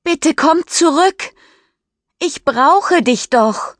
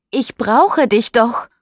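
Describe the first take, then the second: First: Much higher and louder, slowing on the end; desperate call. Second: Said in the usual way. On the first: Acted. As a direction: beg him to come back, calling out. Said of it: "ruft sie jetzt laut in die Nacht". (verzweifelt laut rufen)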